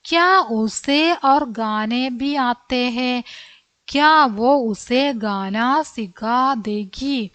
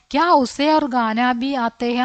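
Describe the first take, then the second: First: Very slow, word by word for the class; slow reading. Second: Said in the usual way. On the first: Shown as a demonstration. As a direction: spell each Hindi word out slowly for children. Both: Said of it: "എന്താ ചോദിക്കാൻ ആഗ്രഹിച്ച കാര്യം?".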